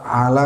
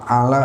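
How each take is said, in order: The two takes are said the same way.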